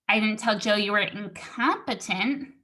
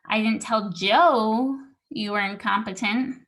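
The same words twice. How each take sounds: First: The word incompetent is stressed. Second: The word Joe is stressed. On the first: Something else insulting was said instead. "I told him you were stupid" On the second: It was told to someone other than Joe. "I told the other guy, but not Joe"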